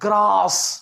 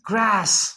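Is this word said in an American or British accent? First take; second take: British; American. First: It is said with a British English accent. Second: It is said with an American English accent. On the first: "हम जिसे बोलते हैं ग्रास" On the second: "अक्सर American English में क्या बोल देंगे वो"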